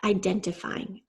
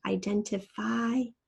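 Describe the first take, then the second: First: Said in the usual way. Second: IDENTIFYING slowed down, long I stretched before a separate ING; long I sound. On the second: Shown as a demonstration. Teacher showing where the long I is, IDENTIFYING slowly broken up. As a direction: pull "identifying" apart, holding the "fy". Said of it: "there is our long I sound".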